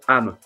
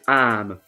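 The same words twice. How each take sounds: First: The vowel is short. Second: The vowel is long. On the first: The speaker calls it wrong. "You don't say âme" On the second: The speaker calls it right. "You say âme. Because the circumflex accent makes the sound more uh, long"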